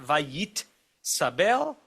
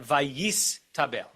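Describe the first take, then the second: First: "vayit sabel" very slowly split, t before s; unswitched vayit sabel. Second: "vayis tabel" slowly split, s before t; switched vayis tabel. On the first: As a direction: stop on the t of "vayit", pause, then "sabel" rising. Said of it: "It's not vayit sabel". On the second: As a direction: end "vayis" on s, pause, then start "tabel" on t. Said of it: "but vayis tabel". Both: Shown as a demonstration.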